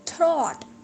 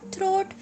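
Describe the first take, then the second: First: The vowel is an 'aw' sound. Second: The vowel is an 'oh' sound. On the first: The speaker calls it right. "It's थ्रॉट" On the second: The speaker calls it wrong. "It's not थ्रोट"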